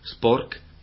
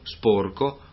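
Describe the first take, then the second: First: The word is cut short, ending on a consonant. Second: The word ends with a final vowel. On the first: This is the inland local form. "parole tronche" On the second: This is the Venetian form. "corrispondenti parole piane più proprie del veneziano"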